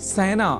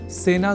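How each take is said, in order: First: The first vowel is an 'ai' sound. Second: The first vowel is a plain 'e' sound. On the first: The speaker calls it wrong. "न कि ऐ का" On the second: The speaker calls it right. "सेना इस शब्द के उच्चारण में ए इस स्वर वर्ण या अक्षर का ही प्रयोग किया जाना चाहिए"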